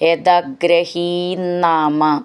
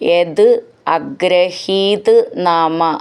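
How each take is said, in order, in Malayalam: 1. വാക്കുകൾ ചേർന്ന് ഒഴുകുന്നു, ന ഇരട്ടിച്ച ശബ്ദത്തോടെ. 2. വാക്കുകൾ വേറെ വേറെയായി, ഇടയിൽ ഇടവേളയോടെ പറയുന്നു.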